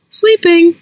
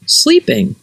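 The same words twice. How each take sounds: First: Much higher bird voice copying the word; a pheasant parroting back; chirpy bird echo. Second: Said in the usual way. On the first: Acted. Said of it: "echoed Pheasant".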